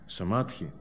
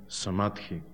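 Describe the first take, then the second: Both takes have the same delivery.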